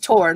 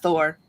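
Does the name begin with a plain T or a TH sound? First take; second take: plain T; TH. First: The name begins with a plain T sound. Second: The name begins with a TH sound. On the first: The speaker calls it right. "it's Tor" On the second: The speaker calls it wrong. "not Thor"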